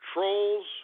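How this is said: It is said in a formal, solemn way.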